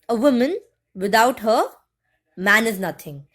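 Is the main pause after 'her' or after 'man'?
after her. A pause comes after 'her', before 'man'. A man is worthless without a woman. "the second sentence says that um, a woman without her, without a woman, a, wa- a man won't be there"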